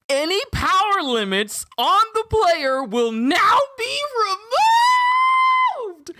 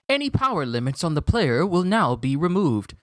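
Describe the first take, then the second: First: It is said in an excited natural voice. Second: It is said in a flat system voice.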